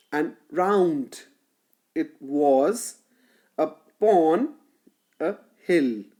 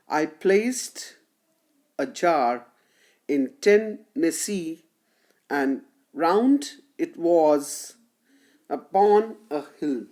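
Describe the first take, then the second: First: "round", "was", "pon", "hill" leaned on, "and", "it", "u-" kept light; iambic stress. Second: Every second syllable "placed", "jar", "ten", "see" pushed harder; slow, measured reading that leans on each beat; iambic stress. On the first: Lecturer rereads the second line to students, stressing each beat. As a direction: tap out the da-dum beat of the line. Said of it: "here the words round, was, pon, and a hill". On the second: Lecturer reads the poem's lines to students, marking each iambic beat. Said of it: "you must have noticed that I have s-, stressed".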